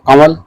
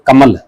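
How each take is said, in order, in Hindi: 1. बीच में नासिक स्वर है, फिर 'w'। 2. बीच में साधारण 'm' की आवाज़ है। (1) "दो तरीके से बोला जाता है, एक तो कंवल" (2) "एक कमल"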